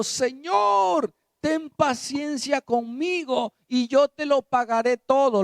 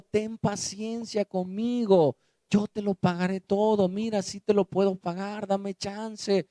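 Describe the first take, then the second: First: Desperate plea. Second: Humble plea. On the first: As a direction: cry out for mercy on your knees. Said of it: "Le suplicaba diciendo". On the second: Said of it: "Le rogaba diciendo". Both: Acted.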